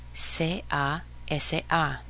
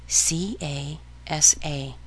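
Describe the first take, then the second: First: "C A S A" spelt slowly as seh, ah, EH-seh, ah; Spanish letter names. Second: "C A S A" spelt slowly as see, ay, ess, ay; English letter names. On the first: Teacher respelling casa for learners, "C A S A" in Spanish letters. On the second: Teacher spelling casa for learners, "C A S A" in English letters. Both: Shown as a demonstration.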